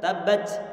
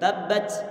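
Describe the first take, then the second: First: The final t ends in a strong s-like hiss. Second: The same.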